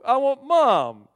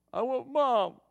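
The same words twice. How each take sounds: First: Put-on much louder, high and slow wailing kid; drawn-out crying plea for mom; bawling child. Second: Put-on high, mildly whiny little boy's voice; a touch of a tearful kid; crying child. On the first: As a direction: wail it like a toddler in tears. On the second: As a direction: imitate a sulky toddler asking for mom. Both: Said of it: "just bawling".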